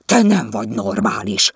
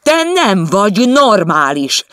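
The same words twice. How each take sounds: First: Snapped at. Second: Higher, much louder, slow shout on nem. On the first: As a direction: snap it at her. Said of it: "rivalt rá Vizi". (ráförmedve, hangosabban) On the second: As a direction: yell it at her this time. He repeats it in the quarrel. (kiabálva, lassan, a nem szóra nyomva) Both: Acted.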